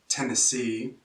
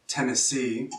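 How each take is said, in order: No difference in how they are said.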